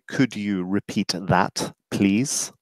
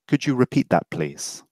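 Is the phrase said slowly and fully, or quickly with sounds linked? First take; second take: fully; linked. First: Every sound is said slowly and fully. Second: It is quick, with a j sound, no final t. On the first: The speaker calls it wrong. "I don't say" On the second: The speaker calls it right. "it's a j sound. ... I don't say the t"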